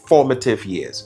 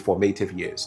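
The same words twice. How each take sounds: First: The first syllable of formative is stressed. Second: The first syllable of formative is not stressed. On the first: The speaker calls it right. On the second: The speaker calls it wrong. "Sometimes I hear people say"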